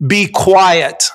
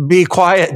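First: Higher, deliberate command; stern. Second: Quick, slightly raised rebuke; lame Bible reading. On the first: Jesus silencing a shrieking demon, stern. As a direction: rebuke it firmly, weighting each word. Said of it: "Jesus said sternly". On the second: Dad reading Jesus's rebuke to family, lamely. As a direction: read the command with little drama. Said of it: "then be lame when you pull the Bible out". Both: Shown as a demonstration.

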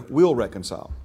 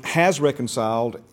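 First: "will" leaned on as the misheard word; stress on WILL. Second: "has" leaned on as the word read; stress on HAS. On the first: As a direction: set "will" against what is written. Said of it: "and they hear". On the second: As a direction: set "has" firmly before "reconciled". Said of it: "a lot of people read". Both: Shown as a demonstration.

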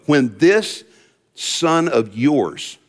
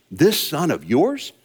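First: "this son of yours" drawn out slowly in disdain; slow, sneering "this son of yours"; contemptuous this son of yours. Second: "this son of yours?" repeated with a questioning rise; rising, incredulous "this son of yours?"; echoing question. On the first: Retold or imitated. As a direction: lean on "this" with scorn. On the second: Shown as a demonstration. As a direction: hold it up as a question to the crowd. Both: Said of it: "notice how he refers to his brother".

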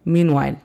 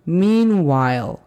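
First: "meanwhile" with the L swallowed, ending in "wail"; faulty "meanwhile" without a clear L; wrong L in meanwhile. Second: "Meanwhile" with a clear, full L at the end; careful model "Meanwhile"; correct meanwhile. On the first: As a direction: say "meanwhile" with a weak, dropped L. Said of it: "se escucharía". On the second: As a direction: say "Meanwhile" slowly, landing the L. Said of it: "es así como queremos que se escuche". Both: Shown as a demonstration.

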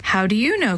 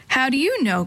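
First: Said in the usual way. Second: Put-on a sharp, higher retort from a defensive kid; quick annoyed comeback; snapped back. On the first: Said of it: "I better do that again". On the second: A narrator's reading. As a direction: snap it back at her. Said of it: "Chris snapped back".

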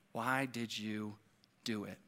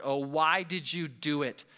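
First: Slow, soft, low accusation; hushed, drawn-out question, like an accuser at the ear; accusing murmur. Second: Understated groaned question; narrated groan at near-usual pitch; mild groan. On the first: Acted. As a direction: let the accusation sink in quietly. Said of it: "does Satan whisper that into". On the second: A narrator's reading. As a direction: read it as the sailors' dismayed groan, lightly. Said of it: "they groaned".

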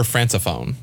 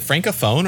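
First: Francophone with an S sound; soft C pronunciation. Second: Francophone with a K sound; hard C pronunciation. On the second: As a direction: say "francophone" as FRANK-o-phone. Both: Shown as a demonstration. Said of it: "is it francophone or francophone".

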